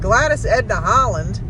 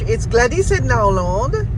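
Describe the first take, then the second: First: The name is said with an American accent. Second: The name is said with a French accent.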